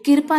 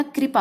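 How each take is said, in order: First: कृपा said "kirpa", I before the R; shifted R. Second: Said in the usual way. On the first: Shown as a demonstration. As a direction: open कृपा with "kir". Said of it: "नहीं होता". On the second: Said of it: "कृपा होता है".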